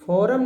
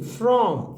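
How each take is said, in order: First: A vowel is inserted between f and r. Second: The f and r form one tight cluster. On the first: The speaker calls it wrong. "फॉरम नहीं" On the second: The speaker calls it right.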